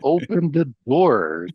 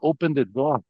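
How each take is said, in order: First: It is said with a heavy, drawn-out country r. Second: It is said with a plain, neutral accent.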